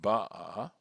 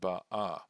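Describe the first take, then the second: First: The stress is on the first syllable. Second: The stress is on the last syllable. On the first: The action is completed, in the past. "the accent falls on the beit" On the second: The action is ongoing, not completed. "the accent again must be on the a"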